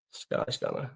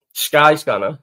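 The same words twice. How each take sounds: First: Breathy whispered repeat of "Sky Scanner". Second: Said in the usual way. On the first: Shown as a demonstration. Repeats site name under breath.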